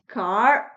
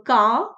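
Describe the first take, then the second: First: The final r sound is pronounced. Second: The final r sound is dropped. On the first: "in American accent, R's are rolled" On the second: "for British accent, ... they drop the R's in the end"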